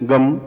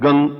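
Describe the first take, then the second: First: The word ends with an m nasal sound. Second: The word ends with an ng nasal sound. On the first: "इसमें मां की ध्वनि बोल सकते हैं" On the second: "जैसे गंग ऐसा भी बोल सकते हैं"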